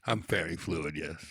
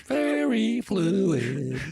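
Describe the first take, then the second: First: Low, quiet fairy voice; deep, understated confirmation; low register. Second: High, drawn-out singsong; high, floaty fairy chant; high register. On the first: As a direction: drop low and say it softly. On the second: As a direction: sing it slowly up in fairy falsetto. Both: Pretend. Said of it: "your vocal register".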